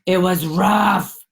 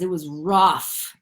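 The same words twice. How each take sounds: First: "It was rough" yavaş ve daha yüksek sesle; ağır ağır, vurgulu söyle; slow, louder rough. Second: Slow rough. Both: Real, not acted. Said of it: "Oh, fuck, you guys".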